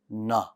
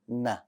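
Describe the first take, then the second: First: The sound is bold, with a heavy, full tone. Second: The sound is light, with the tongue flat. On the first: The speaker calls it wrong. "people make the Nun bold" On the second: The speaker calls it right. "you're going to get this soft sound for the letter Nun"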